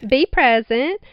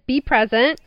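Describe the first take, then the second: First: It is said in a put-on Southern accent. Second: It is said in her ordinary accent.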